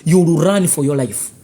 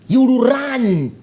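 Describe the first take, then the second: First: Said in the usual way. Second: "You will run" repeated higher and slower; ominous slow repeat of "You will run"; slow raised echo. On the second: Real, not acted. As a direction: echo the threat slowly, pitched up. Repeated warning.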